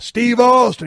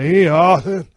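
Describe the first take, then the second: First: The name is spoken clearly and distinctly. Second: The name is mumbled and hard to make out. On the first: The speaker confirms his name openly. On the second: The speaker does not want to reveal his name.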